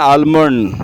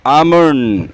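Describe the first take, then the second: First: The L sound is clearly pronounced. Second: The L sound is left out. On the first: The speaker calls it wrong. "आलमंड is a wrong pronunciation" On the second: The speaker calls it right. "ये होता है आमंड"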